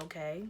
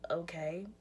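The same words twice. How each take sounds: First: Low, deflated and quiet; a sulky, drained okay; flat dejected tone. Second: Barely-there whispered okay; a lifeless whispered okay. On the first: Retold or imitated. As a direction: answer with no interest at all. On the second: Shown as a demonstration. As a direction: breathe the word, defeated. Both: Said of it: "that's literally how my tone was".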